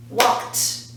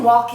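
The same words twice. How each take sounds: First: "walked" said as "walkt"; one beat on "walked", released voiceless "t"; one-syllable ending. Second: "walked" misread as "walk-id"; wrong two-syllable ending. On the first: Teacher correcting the extra syllable, "walked" as crisp "walkt". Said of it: "It's walked". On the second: Teacher showing what not to say, "walked" as "walk-id". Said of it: "We're not saying walked". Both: Shown as a demonstration.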